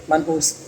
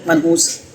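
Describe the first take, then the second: First: मनहूस said again, much softer and lower; quieter repeat. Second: Said in the usual way. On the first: Shown as a demonstration. Tutor repeating the insult under his breath, quietly. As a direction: drop your voice for the second मनहूस.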